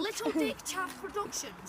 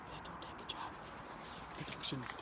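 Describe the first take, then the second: First: Announcer voice. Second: Unvoiced whisper of a title. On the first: Pretend. Repeat aloud slowly. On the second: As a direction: breathe it like a secret announcement.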